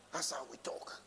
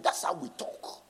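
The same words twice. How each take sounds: First: Whisper. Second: Said in the usual way. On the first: Acted. Preacher repeating his point to the congregation, whispered. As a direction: whisper "That's how we talk" under the breath.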